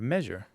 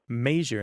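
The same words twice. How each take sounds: First: The first vowel is the 'e' sound. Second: The first vowel is not the 'e' sound. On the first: "I say it with the e sound" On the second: "If you say measure instead of measure"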